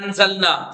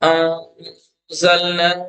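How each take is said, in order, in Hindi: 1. n पूरा और साफ़ बोला जाता है। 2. n छिपी हुई नासिका ध्वनि है। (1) "मैं नहीं कह रहा अंज़लना, जैसे आम लोग कहते हैं" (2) "तो कैसे कर रहा हूं मैं? अं"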